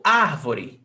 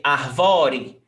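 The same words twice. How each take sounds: First: Árvore with AR hit hard, the rest falling away; AR-vo-re, punching the opening syllable; stress on first syllable. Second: Arvore wrongly stressed on VO; ar-VO-re, leaning on the middle syllable. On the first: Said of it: "Is the stressed syllable". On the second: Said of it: "You don't say arvore". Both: Shown as a demonstration.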